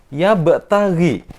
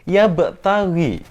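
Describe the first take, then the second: The two takes are said the same way.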